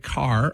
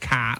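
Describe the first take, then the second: First: General American, with the final R pronounced. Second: Boston accent, with the final R dropped.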